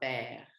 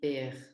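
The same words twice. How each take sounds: First: The vowel is open, like 'eh'. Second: The vowel is closed, like 'ay'. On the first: The speaker calls it right. "le son s'ouvre" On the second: The speaker calls it wrong. "on peut pas dire père"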